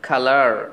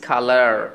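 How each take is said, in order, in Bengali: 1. শেষে স্পষ্ট r উচ্চারণ আছে। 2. শেষে স্পষ্ট r উচ্চারণ আছে।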